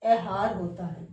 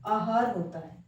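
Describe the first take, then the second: First: Wrong ए at the front of आहार; ए starting आहार. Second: आहार begun on आ, not ए; correct आ starting आहार. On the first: Teacher ruling out a wrong form, आहार as एहार. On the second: Teacher giving the right form, आहार with clear आ. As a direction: say आहार with open आ first. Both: Shown as a demonstration. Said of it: "हमें ये चीज़ें समझनी है".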